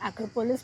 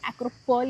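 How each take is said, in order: First: The word ends with a clear s sound. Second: The word ends without any s sound. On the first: This is how English speakers say it. "English में इसको एक्रोपोलिस बोलते हैं" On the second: This is how Greek speakers say it. "Greek में लोग एक्रोपोल ही बोलते हैं, उनका एस साइलेंट हो जाता है"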